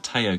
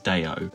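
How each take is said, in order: First: The word begins with a T sound. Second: The word begins with a D sound. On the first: This is the speaker's own way of saying it. "I'm going to say it's the Teo Connection" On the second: This is how it is said in the story. "I'm sure in the story he says it's Deo"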